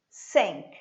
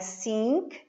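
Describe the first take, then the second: First: The vowel is a short, lax 'i' sound. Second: The vowel is a long, tense 'ee' sound. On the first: The speaker calls it right. "Aquele som de E com circunflexo" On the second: The speaker calls it wrong. "Não é sink"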